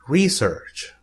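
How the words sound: It is said with an American pronunciation. "Americans say research"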